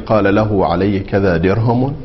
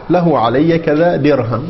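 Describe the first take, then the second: First: The last word ends in the vowel u. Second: The last word ends with no final vowel. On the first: "بالحركات الثلاث ... الرفع" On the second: "ووقف بالسكون"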